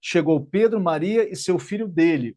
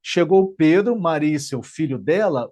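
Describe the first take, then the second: First: Dele brought out at the end; stress on dele. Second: Dela landed with a falling stress. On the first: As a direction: lean on "dele" to make the son Pedro's. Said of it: "Se eu trocar esse dela por dele". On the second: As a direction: lean on "dela" to show whose son. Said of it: "Então, quando eu falo". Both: Shown as a demonstration.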